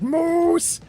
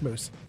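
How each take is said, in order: First: The vowel is stretched out, exaggerated. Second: The vowel is said at normal length.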